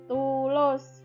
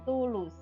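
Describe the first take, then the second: First: The last vowel sounds like o. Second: The last vowel sounds like u. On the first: The speaker calls it right. "kalau tertutup akan menjadi O" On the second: The speaker calls it wrong. "bukan tulus"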